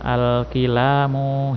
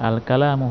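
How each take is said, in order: First: The vowel after the k is 'i'. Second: The vowel after the k is 'a'. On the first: The speaker calls it wrong. "Kenapa saya tidak membaca" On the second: The speaker calls it right. "barulah kita baca"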